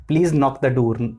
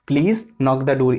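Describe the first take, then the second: First: Said in the usual way. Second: Slow example. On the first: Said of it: "नॉक". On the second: Shown as a demonstration. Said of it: "यही please से हमारा sentence बन गया".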